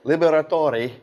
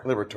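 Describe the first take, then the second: First: The surname is said with Italian pronunciation. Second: The surname is said with American pronunciation. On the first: "that's actually the proper Italian pronunciation" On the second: "the American version"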